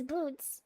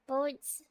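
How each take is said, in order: First: "boots" con u larga, como bota en inglés. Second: "Boats" con o larga de bote. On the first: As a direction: say "boots" with a long OO. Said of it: "It's boots". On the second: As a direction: say "Boats" with a long O like boat. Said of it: "Am I supposed to say it like boats?". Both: Shown as a demonstration.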